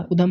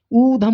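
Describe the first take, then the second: First: उधम with a short उ, u-dham; उधम the common mistake; wrong pronunciation. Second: ऊधम with a long ऊ, oo-dham; ऊधम said correctly; correct pronunciation. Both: Shown as a demonstration. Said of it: "उधम नहीं".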